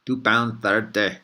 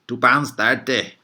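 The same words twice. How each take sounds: First: Put-on slow Scottish accent slipping toward Irish; a Scottish cabbie voice that slides into Irish; Scottish accent drifting Irish. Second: Put-on slow, loud Scottish cabbie accent. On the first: Vlogger repeating the cabbie's fare, Scottish accent turning Irish. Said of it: "now it's getting a little bit Irish". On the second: Vlogger imitating a Scottish cabbie, slow Scottish accent. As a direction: say it like a Scottish cabbie quoting the fare. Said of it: "with a proper Scottish accent, which is this".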